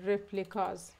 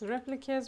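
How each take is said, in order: First: The last syllable has a full, open vowel. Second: The last syllable has a short, reduced vowel. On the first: The speaker calls it wrong. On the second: The speaker calls it right.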